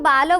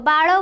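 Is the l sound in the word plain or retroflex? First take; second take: plain; retroflex. First: The l sound is plain, tongue not curled back. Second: The l sound is retroflex, tongue curled back. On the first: "ମୁଁ ତାକୁ ବାଲ ବୋଲି କହୁଛି। ଳ କୁ ଆମେ ଲ ବୋଲି ଉଚ୍ଚାରଣ କରିଥାଉ।" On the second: "ବାଳ ବୋଲି କହୁଥିବ।"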